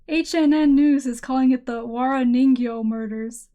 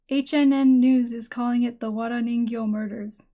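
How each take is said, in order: First: Wara Ningyo is said with English pronunciation. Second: Wara Ningyo is said with Japanese pronunciation.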